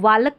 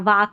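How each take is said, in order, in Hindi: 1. L के उच्चारण वाला लंबा a स्वर। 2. L के बिना लंबा a स्वर। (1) "इसको वालक नहीं पढ़ेंगे" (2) "वाक नहीं पढ़ेंगे"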